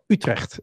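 It is said with a Dutch pronunciation.

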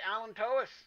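The word is pronounced the American way. The speaker calls it right. "I'm just going to say allantois. Be American about it"

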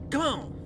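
It is said imitating Zaphod Beeblebrox's voice.

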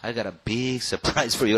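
The voice sounds unhappy and displeased. The surprise is a bad one. "라고 안 좋게 들리느냐"

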